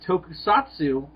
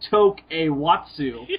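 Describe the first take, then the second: First: The word is said as toku-satsu. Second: The word is said as tok-a-watsu. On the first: "it says Tokusatsu at the top" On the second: "the way I pronounce it"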